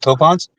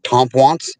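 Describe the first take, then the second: First: The first syllable has no 'm' sound. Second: The first syllable has an added 'm' sound. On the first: This is how locals say the name. The speaker calls it right. "It's called Topons" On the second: This imitates how a navigation voice says it. The speaker calls it wrong. "They pronounce it Tompwants"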